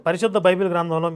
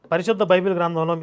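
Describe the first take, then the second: No difference in how they are said.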